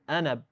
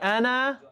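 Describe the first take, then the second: First: The final vowel is cut short. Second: The final vowel is held long. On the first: "I got made it short sound" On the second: "Did I say أنا?"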